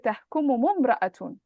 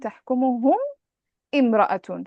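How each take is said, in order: First: The words run together with an 'u' and no glottal stop. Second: A pause, then the second word starts with a glottal stop. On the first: The speaker calls it right. "So how would you join تحكمهم and امرأة? You would put a dhamma" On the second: The speaker calls it wrong. "So you paused at تحكمهم and then you said امرأة"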